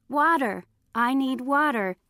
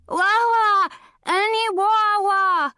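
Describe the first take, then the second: First: Said in the usual way. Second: High "Wah, wah, any wah, wah", consonants dropped; burned-tongue cry. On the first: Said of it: "Granny came rushing into the room and translated". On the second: A narrator's reading. Coyote begging for water, garbled wail "Wah, wah, any wah, wah". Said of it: "cried Coyote".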